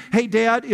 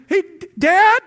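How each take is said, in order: First: Said in the usual way. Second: Imitating a kid's alarmed shout, high and loud; urgent child's call. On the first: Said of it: "my ear has been trained". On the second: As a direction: yell for Dad as if something's wrong. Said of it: "Dad goes on high alert".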